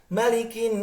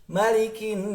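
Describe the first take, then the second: Both takes have the same delivery.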